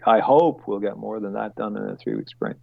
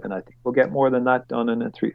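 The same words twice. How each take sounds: First: "hope" picked out, then fall away; stress on HOPE. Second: Said in the usual way. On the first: Real, not acted. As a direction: lean on "hope" as a self-correction. Corrects think to hope.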